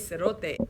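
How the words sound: It is said in a relaxed, friendly way. It is a casual greeting between friends. "you would use it with among your friends really casually"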